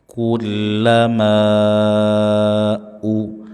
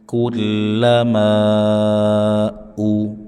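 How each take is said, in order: No difference in how they are said.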